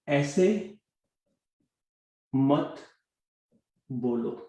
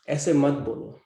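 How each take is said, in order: First: ऐसे, मत, बोलो set apart by long pauses; word by word. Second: Said in the usual way. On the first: Shown as a demonstration. Teacher giving Hindi learners a simple sentence, word by word. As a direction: say ऐसे, then मत, then बोलो, pausing well after each.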